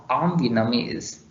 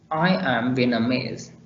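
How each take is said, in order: First: "I'm" contracted into one syllable; weak form. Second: I AM said as two full separate words; strong form. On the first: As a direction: run I and am together as "I'm". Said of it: "In weak form". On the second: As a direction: give "am" its full vowel in "I am". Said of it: "Such as strong form". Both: Shown as a demonstration.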